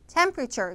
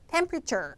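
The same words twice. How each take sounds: No difference in how they are said.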